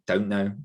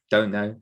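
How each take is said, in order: Both takes have the same delivery.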